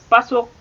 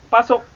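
Both takes have the same delivery.

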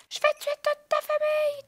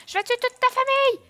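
First: Higher, hammier shout. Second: Angry shout. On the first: Menace reprise plus aiguë. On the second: Première menace. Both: Acted.

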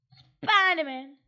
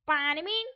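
First: Spiderman stretched out very slow; drawn-out Spiderman. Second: Said in the usual way. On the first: Shown as a demonstration. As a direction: drag out Spiderman, louder. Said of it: "Spiderman (plain take)". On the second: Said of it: "Spiderman (drawn-out retake)".

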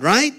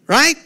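First: Said in the usual way. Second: Right? much higher and louder, rising; emphatic right. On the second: Real, not acted. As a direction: press the crowd with Right?. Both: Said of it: "repeated rhetorical right".

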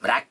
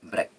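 First: "ब्रेक" as BRACK, with a wide a; wide ae vowel in "ब्रेक"; wrong open vowel. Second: "ब्रेक" as BREK, short e; brief e, crisp k in "ब्रेक"; correct short brek. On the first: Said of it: "ब्रेक नहीं बोलना है". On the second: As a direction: say "ब्रेक" rhyming with neck. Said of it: "उसको हम ब्रेक बना देते हैं". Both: Shown as a demonstration.

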